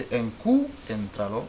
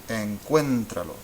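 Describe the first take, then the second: First: "encuéntralo" as en-CU-en-tra-lo, stress on a separate u; broken diphthong, wrongly stressed. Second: "encuéntralo" as en-CUEN-tra-lo, ue kept in one stressed syllable; stressed diphthong. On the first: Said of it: "we don't wanna say". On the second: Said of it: "We wanna say". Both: Shown as a demonstration.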